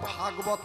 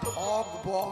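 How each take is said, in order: First: The first syllable is said as 'bha'. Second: The first syllable is said as 'bho'. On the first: The speaker calls it wrong. "কথাটা আমার উচ্চারণ করতে ভুল হচ্ছে বাবা, কথাটা ভাগবত নয়" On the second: The speaker calls it right. "কথাটা হচ্ছে ভগবত"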